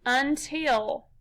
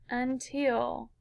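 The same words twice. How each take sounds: First: "until" in two distinct pieces, un, till; syllable by syllable. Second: Said in the usual way. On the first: Shown as a demonstration. Teacher putting the syllables together for pupils, "until" in two pieces. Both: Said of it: "Put 'em together".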